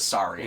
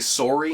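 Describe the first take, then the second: First: The first vowel sounds like 'ah'. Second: The first vowel sounds like 'or'. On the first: "Americans say it like it's more of an A noise" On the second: "We say sorry instead of sorry. ... we're more or"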